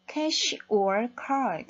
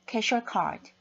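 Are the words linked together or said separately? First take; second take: separate; linked. First: Each word is said separately and carefully. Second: The words run together in one linked stream. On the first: "이렇게 정확하게 발음해 주지 않습니다" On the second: "연음을 해버리죠"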